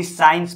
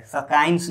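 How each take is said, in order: First: "साइंस" with no k sound, starting on plain s; correct silent c. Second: "सकाइंस" with the c sounded as k; wrong pronunciation. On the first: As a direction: go from s straight into the vowel in "साइंस". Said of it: "इसको भी साइंस पढ़ा जाता". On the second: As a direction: put a hard k after the s in "सकाइंस". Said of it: "सकाइंस नहीं पढ़ा जाता है". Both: Shown as a demonstration.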